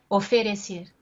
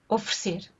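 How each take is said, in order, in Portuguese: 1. Cada vogal é pronunciada de forma plena e clara. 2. As vogais átonas são reduzidas ou apagadas. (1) "Um falante português do Brasil diria oferecer" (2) "Eu digo oferecer"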